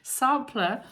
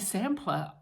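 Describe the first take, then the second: First: The word is said in a New Zealand way. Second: The word is said in a non-New Zealand way. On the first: The speaker calls it right. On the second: The speaker calls it wrong.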